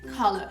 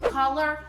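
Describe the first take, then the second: First: It is said in a British accent. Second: It is said in an American accent. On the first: "no britânico seria color" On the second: "Eu falei aqui com sotaque americano"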